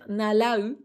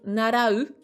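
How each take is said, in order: First: The middle consonant is a clear L sound. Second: The middle consonant is a Japanese tapped R. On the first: "tu peux dire nalau" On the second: "si t'arrives pas à dire par exemple narau"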